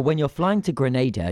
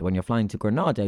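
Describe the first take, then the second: First: Grenada with a long AY in the middle. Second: Granada with a long AH in the middle. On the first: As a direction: say Grenada as gruh-NAY-duh. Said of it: "that serves the whole island". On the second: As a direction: say Granada as gruh-NAH-duh. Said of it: "flying to a Spanish city". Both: Shown as a demonstration.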